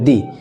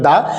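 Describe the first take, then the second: First: The word ends in an 'ee' vowel. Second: The word ends in a short 'uh' vowel. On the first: The next word starts with a vowel. "সেটার উচ্চারণ হবে দি" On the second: The next word starts with a consonant. "সেটার উচ্চারণ হবে দা"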